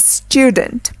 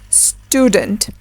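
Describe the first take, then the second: First: "student" as styoo-dent, with a Y glide; British Y-glide in "student"; British pronunciation. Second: "student" as stoo-dent, no Y sound; American long U in "student"; American pronunciation. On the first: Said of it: "while in British English". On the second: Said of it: "in American English". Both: Shown as a demonstration.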